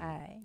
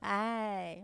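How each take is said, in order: First: It is said coldly, with no warmth. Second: It is said in an impatient tone.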